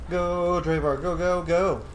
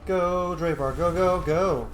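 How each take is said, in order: Both takes have the same delivery.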